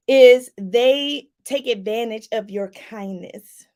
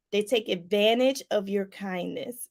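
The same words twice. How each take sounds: First: Louder, slow and deliberate, every word landed; slow emphatic. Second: Said in the usual way. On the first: Shown as a demonstration. Teaching viewers, says it slow and loud for emphasis. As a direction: drive the point home slowly and loudly.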